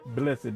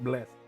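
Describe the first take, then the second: First: The word is said in a Southern accent. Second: The word is said in a plain accent. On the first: The speaker calls it right. "That's how you say it in, in Southern" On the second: The speaker calls it wrong.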